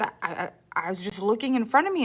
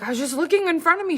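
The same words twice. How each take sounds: First: Said in the usual way. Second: Higher, fast defensive protest; hurried, high-pitched retelling of her younger self; flustered teen. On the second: Retold or imitated. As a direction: blurt it out like a nervous student driver. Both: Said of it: "And I was like".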